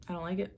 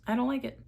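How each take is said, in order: First: It much softer, trailing off; muttered repeat. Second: Said in the usual way. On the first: Shown as a demonstration. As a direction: quietly say I don't like it again.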